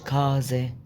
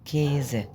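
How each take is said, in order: First: The first vowel sounds like a. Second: The first vowel sounds like e. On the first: The speaker calls it wrong. "مش كازة" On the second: The speaker calls it right. "ال اه عليها املاut بنطق ايه"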